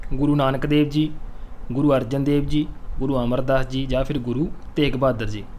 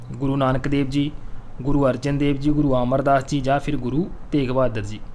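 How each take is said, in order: Both takes have the same delivery.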